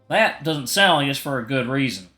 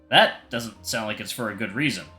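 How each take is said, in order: First: It is said in a country-sounding accent. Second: It is said in a plain, non-country accent.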